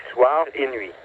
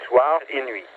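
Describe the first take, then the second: No difference in how they are said.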